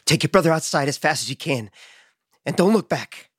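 It is said imitating Sam's voice.

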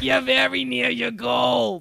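It is said in a deep, hoarse voice.

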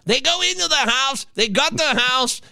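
It is said in a different, put-on voice.

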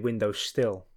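The second word is said as still. This is how the speaker's own community says it. "We say window still"

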